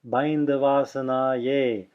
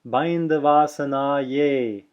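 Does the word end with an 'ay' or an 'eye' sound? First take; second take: ay; ay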